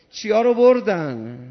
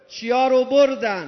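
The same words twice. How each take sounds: First: Louder pointed question; loud demand. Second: Higher, louder pointed question; loud demand. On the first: Preacher demanding the crowd answer, louder. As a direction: press the crowd with it. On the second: Preacher calling the question out to the crowd, higher and louder. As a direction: call the question out again. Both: Real, not acted.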